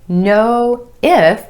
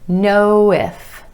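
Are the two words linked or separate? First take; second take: separate; linked. First: The two words are said separately. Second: The words are linked with a gentle w sound. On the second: "gliding from that final O in no into the I in if"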